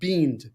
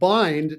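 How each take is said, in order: First: The vowel sounds like 'ee'. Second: The vowel sounds like 'eye'. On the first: The speaker calls it wrong. "not beamed" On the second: The speaker calls it right. "this word is pronounced bind"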